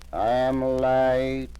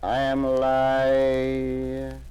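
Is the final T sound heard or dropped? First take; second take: heard; dropped. First: The final T sound is pronounced. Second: The final T sound is left off.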